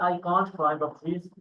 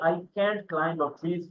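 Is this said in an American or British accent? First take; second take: British; American. First: Can't is said with a British accent. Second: Can't is said with an American accent. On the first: "we are following British uh, accent" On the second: "we are actually following American English, American accent."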